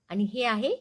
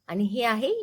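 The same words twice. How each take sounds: Both takes have the same delivery.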